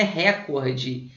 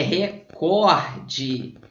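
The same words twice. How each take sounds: First: "recorde" com o "ré" inicial forte e aberto; tônica no RE. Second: "recorde" bem lento, com o "cor" forte e esticado; tônica no COR. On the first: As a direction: diga "récorde", como proparoxítona. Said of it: "não é recorde". ("recorde" com tônica na primeira sílaba) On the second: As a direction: separe e alongue o "cor" de "recorde". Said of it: "é recorde". ("recorde" com tônica na penúltima) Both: Shown as a demonstration.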